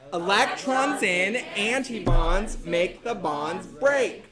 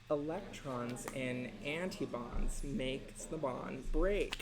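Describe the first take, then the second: First: It is said very loudly, nearly shouted. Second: It is said at normal talking volume.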